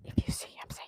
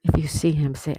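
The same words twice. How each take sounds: First: Hushed whispered instruction. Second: Firmly projected game instruction; loud instruction. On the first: Host whispering the Waldo game rules to viewers. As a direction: whisper it like a secret game rule. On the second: Host announcing the Waldo game rules to viewers, loud. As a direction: call it out to the whole chat. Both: Real, not acted.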